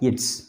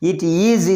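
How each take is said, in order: First: The two words are merged into one syllable. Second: Two separate words are said in full. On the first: "pronounced as its" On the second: "It is is pronounced as its"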